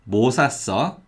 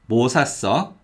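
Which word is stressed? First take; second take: 뭐; 뭐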